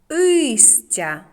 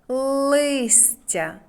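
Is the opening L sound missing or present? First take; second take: missing; present. First: The word starts without the L sound. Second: The word starts with the L sound. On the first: The speaker calls it wrong. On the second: The speaker calls it right.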